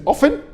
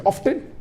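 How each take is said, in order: First: "often" with the T left silent. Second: "often" with the T pronounced; sounded T. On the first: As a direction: say "often" as OFF-en, no T sound. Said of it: "Some say T is silent". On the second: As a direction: say "often" as OFF-ten, T clearly sounded. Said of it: "T is not silent". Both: Shown as a demonstration.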